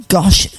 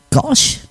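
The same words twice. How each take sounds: First: Said in the usual way. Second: High, quiet disbelieving echo of the word; incredulous gosh. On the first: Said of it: "he says". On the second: Real, not acted. DJ echoing a listener's old-fashioned word in disbelief. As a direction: repeat it like you can't believe someone said it. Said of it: "Last time I heard gosh".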